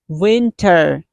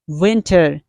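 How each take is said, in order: First: The final R is clearly pronounced. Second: The same.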